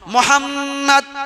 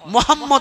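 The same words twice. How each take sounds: First: The m sound is held nasally for a moment. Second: The m sound is short, without nasal hold. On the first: The speaker calls it right. "নাকের মধ্যে আওয়াজটাকে কিছুক্ষণ ছুপিয়ে রাখতে হয়" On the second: The speaker calls it wrong. "নয়"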